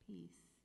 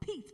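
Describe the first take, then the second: First: The word is said slowly and gently. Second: The word is said quickly and urgently. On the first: The mind is being brought back gently. The speaker calls it right. "just gently try to bring yourself back" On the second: The mind is being forced back. The speaker calls it wrong. "don't go"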